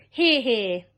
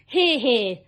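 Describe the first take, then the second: First: A louder, different voice cheering; cheering shout. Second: A louder cheer of agreement; cheering shout. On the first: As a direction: another creature cheers along. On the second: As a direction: cheer them on together. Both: Acted. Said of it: "they all shouted".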